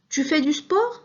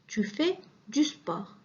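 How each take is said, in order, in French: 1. La voix monte, aiguë, à la fin. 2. La voix tombe, grave, à la fin.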